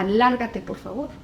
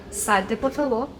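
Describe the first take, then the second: First: Rude dismissal. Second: Said in the usual way. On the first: Shown as a demonstration. Showing parents the harsh way to send a child out, a rough order. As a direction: throw them out with a rough "Lárgate". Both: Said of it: "No es lo mismo que yo te diga".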